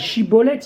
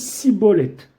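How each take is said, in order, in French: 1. Le mot commence par un son sh. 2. Le mot commence par un son s. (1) "la distinction entre le Shin et le Sin" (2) "il dit Sibolette"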